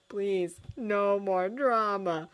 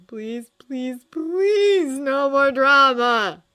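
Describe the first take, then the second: First: Slow, pleading murmur; silent prayer. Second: Rising to a loud, slow, high wail; desperate prayer. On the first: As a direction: pray it slowly under your breath. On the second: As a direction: beg heaven, louder each please. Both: A narrator's reading.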